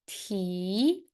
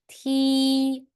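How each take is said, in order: First: The pitch rises from middle to high. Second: The pitch stays high and level. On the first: "How about the second tone?" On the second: "the first one, first tone"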